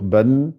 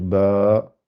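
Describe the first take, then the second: First: "ban" ending on an audible n; ban with final n. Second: "ba" held long, no final n; open, drawn-out "ba" with the n dropped; ba without n. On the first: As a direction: sound the closing n in "ban". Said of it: "on va plus lire ban". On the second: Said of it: "on va lire ba". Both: Shown as a demonstration.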